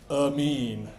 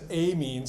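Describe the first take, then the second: First: The first vowel is a reduced schwa. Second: The first vowel is a full vowel. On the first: This is the usual American pronunciation. The speaker calls it right. "we typically use our favorite... vowel, which is the schwa" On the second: This is a pronunciation Americans do not use. The speaker calls it wrong. "Nobody says amines. I guess maybe the Brits say amines"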